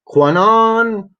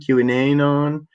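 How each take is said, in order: First: The Q is blended into one syllable. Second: The Q is said as a letter name. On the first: The speaker calls it wrong. "I'm mispronouncing on purpose" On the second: The speaker calls it right. "he's saying QAnon"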